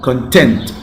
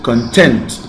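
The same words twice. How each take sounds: First: The stress is on the second syllable. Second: The stress is on the second syllable.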